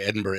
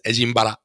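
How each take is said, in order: First: It is said with a plain English pronunciation. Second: It is said with a Japanese-style pronunciation.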